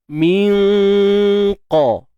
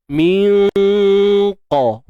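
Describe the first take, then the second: Both takes have the same delivery.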